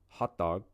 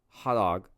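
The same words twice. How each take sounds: First: The final consonant sounds are clearly pronounced. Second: The final consonant sounds are dropped. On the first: The speaker calls it right. "instead of hot dog" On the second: The speaker calls it wrong. "if you're saying, you know, hot dog"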